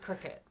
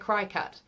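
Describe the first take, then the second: First: The first syllable sounds like 'crick'. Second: The first syllable sounds like 'cry'. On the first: The speaker calls it right. "it is cricket" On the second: The speaker calls it wrong. "I want to say cry cut"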